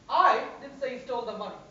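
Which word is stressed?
I. The word I is stressed. Someone else said it. "Means somebody else said it"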